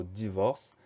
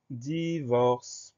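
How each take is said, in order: First: Said in the usual way. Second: DIVORCE drawn out slowly, each syllable held. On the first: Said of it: "il n'y a pas de piège". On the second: Shown as a demonstration. Teacher dictates the next word to pupils, syllable by syllable. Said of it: "Première syllabe".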